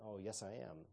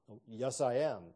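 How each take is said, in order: First: Said in the usual way. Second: Puffed-up, louder mock of a know-it-all seminarian; lightly hammed smug know-it-all; pompous self-important voice. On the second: Shown as a demonstration. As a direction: sound important and smart. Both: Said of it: "They're trying to sound important and smart".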